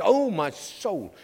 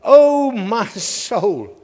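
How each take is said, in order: First: Soft, slow, mock dramatic sigh; lightly voiced child's pet phrase; son's oh my soul, quietly played; imitating his son. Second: Slow, drawn-out cry of the soul; slow, mournful oh my soul; psalmist's lament. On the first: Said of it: "He loves saying this". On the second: Acted. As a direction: stretch it out like a weary sigh to yourself. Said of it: "He says".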